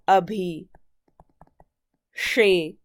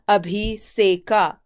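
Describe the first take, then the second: First: The consonant before 'eka' is an sh. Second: The consonant before 'eka' is a plain s. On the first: This is the form after the sound change. "this sa turns into this sha" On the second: This is the form before the sound change. "we have abhi seka"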